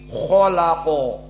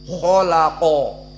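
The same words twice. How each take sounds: The two takes are said the same way.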